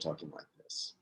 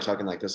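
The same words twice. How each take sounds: First: The words are spoken at normal speed. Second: The words are spoken quickly, sped up.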